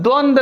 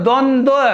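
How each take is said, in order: First: The word ends without a final 'va' syllable. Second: The word ends with a final 'va' syllable. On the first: The speaker calls it wrong. "द्वंद नहीं होता" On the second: The speaker calls it right. "द्वंद्व उच्चारण होगा इसका"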